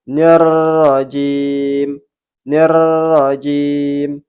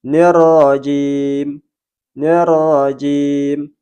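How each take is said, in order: First: Very slow nirrajim with an exaggerated rolling r; overtrilled ro. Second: Slow Nirrajim with a single light tap of r; natural ro. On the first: Teacher showing the overtrilled ro mistake. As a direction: roll the r in nirrajim far too long. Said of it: "Bergetar tidak wajar secara berlebihan". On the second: Teacher demonstrating a natural ro. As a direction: tap the r in Nirrajim just once. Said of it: "pengucapan sewajarnya". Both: Shown as a demonstration.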